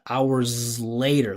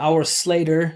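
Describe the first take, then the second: First: The final s is buzzed and voiced. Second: The final s is hissed and voiceless. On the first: The speaker calls it right. "Slater instead of hours later" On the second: The speaker calls it wrong. "It sounds like she's saying like our Slater"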